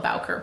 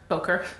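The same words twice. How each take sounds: First: "Bowker" with "Bow" rhyming with cow; Canadian-accent Bowker. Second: Bowker with "Bow" like "bow tie", rising as if unsure. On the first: Host jokingly blaming her Canadian accent, says BOW-ker. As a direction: settle on "Bowker" as BOW-ker, like a cow's bow-wow. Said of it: "call it my Canadian accent and call it Bowker". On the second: Host unsure of a brand name, trying Bowker with an oh sound. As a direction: try "Bowker" as BOH-ker, checking it. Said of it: "I never know how to say it". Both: Shown as a demonstration.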